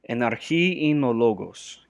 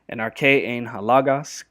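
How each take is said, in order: First: It is read in modern Greek pronunciation. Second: It is read in Erasmian Greek pronunciation.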